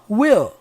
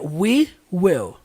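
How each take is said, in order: First: The two words merge into one short syllable. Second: The two words are said fully and separately. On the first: "ele junta tudo... E como é que fica essa junção? Assim" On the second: "Se eu falasse essas palavras separadas, seria we will"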